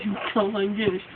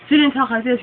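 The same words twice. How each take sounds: First: Slurred, mumbling through a numb mouth; mock numb-mouthed slur; numb-mouth mumble. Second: Said in the usual way. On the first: Shown as a demonstration. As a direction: talk like your tongue is numb from hot sauce.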